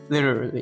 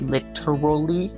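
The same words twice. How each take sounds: First: The syllables are reduced and run together. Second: Every syllable is sounded out clearly. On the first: The speaker calls it wrong. "a lot of Americans might just say literally or literally or just like completely slur the speech" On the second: The speaker calls it right. "that might be the actual or the literal pronunciation"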